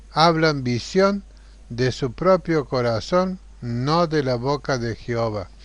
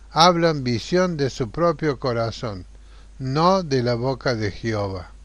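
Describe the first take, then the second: The two takes are said the same way.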